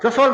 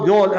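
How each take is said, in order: First: The name is said with both syllables. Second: The name is clipped to one syllable. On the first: This is the original form of the name. "जसोल गांव है" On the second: This is the corrupted everyday form of the name. "जोल जोल जोल ऐसे बोलने लग जाते हैं"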